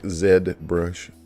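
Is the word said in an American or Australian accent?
Australian. It is said in an Australian accent. "as my friend Ben ... would say"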